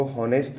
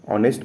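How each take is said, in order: First: हॉनेस्ट with an audible H at the start; H sounded. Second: ऑनेस्ट starting straight on the vowel, no H; silent H. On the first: Teacher showing students the wrong reading, हॉनेस्ट with H sounded. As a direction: say हॉनेस्ट, wrongly voicing the silent H. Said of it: "इसको हॉनेस्ट नहीं पढ़ेंगे, एच silent है". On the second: Teacher showing students the correct reading, ऑनेस्ट with silent H. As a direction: drop the H and open ऑनेस्ट on "o". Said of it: "एच silent है, ऑनेस्ट पढ़ेंगे". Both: Shown as a demonstration.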